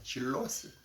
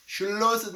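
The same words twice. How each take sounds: First: Said in the usual way. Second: "She lost it" much louder and higher, hitting "lost"; emphatic repeat. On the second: Real, not acted. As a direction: hammer home "lost" the second time.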